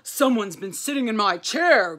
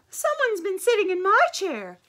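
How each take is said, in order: First: It is said in a low grumbling voice. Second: It is said with a breathless gasp.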